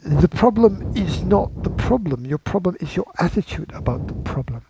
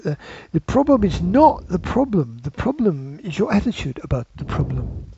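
First: Terrible attempt at a London accent; lightly put-on London accent. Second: Put-on second, broader go at a London accent; South London accent. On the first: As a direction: have a half-hearted go at a London accent. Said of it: "my London accent for this one". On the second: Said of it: "down South London, people talk like this".

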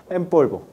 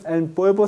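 First: "en polvo" blended as "empolvo", n turned to m; now the right way: "en polvo" with the lips closed on the m; correct pronunciation. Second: "en polvo" with a clear tongue n before polvo; wrong pronunciation. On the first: Teacher giving the correct model, "en polvo" as "empolvo". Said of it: "No es en polvo, sino". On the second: Teacher imitating the students' error, "en polvo" with a separate n. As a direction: demonstrate the mistake: "en" with a true n, then "polvo". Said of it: "nunca pronuncien esto como en polvo". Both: Shown as a demonstration.

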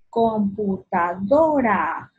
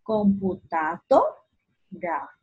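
First: "Computadora" slow, with DO drawn out; stress on DO. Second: "Computadora" slow as computaDO, pause, ra; separated syllables. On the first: Teacher presenting the next word, slow stress on DO in "Computadora". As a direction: stretch "Computadora" evenly, leaning on DO. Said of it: "La do". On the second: Teacher separating "Computadora", stressed DO and a pause. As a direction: lift DO in "Computadora", then stop before ra. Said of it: "Voy a separarlo". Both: Shown as a demonstration.

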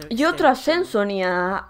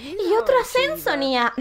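First: Lower, grander announcer reading; announcer redo. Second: Said in the usual way. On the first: Shown as a demonstration. Streamer redoes the promotion line as a grand announcement. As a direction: say it like a proud announcement. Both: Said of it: "Perdón".

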